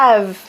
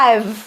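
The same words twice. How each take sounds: The two takes are said the same way.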